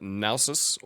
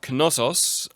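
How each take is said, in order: First: It is said with an English pronunciation. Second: It is said with a German pronunciation. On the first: The speaker calls it right. "I should call it Nausos or Knossos for uh, the English language" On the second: The speaker calls it wrong. "I've been calling it Knossos"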